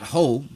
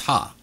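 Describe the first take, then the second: First: The word ends in an 'oh' vowel. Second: The word ends in an 'ah' vowel. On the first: The speaker calls it wrong. "Not ho" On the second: The speaker calls it right. "That pronunciation is ha"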